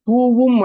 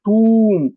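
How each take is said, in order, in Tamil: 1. v ஒலி இரண்டு உயிரெழுத்துகளை இணைக்கிறது. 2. நீண்ட உயிரெழுத்து v ஒலி இல்லாமல் நீட்டப்படும். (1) "இது தூவும் மழை அப்படின்னு சில பேர் சொல்றாங்க. அது தூவும் இல்ல"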